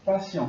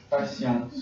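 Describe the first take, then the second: First: PATIENT ending on a nasal vowel, silent T; masculine form. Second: PATIENTE with the final T sounded; feminine form. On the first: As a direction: say "Patient" leaving the last T silent. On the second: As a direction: end "Patiente" on an audible T. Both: Shown as a demonstration. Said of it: "La lettre E est nécessaire".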